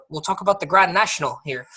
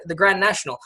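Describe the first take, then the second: First: Grand National said the British way, clipped; British pronunciation. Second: Grand National in a British accent; "Grand National" the way the Brits say it; British pronunciation. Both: Shown as a demonstration. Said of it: "that's how they would say it".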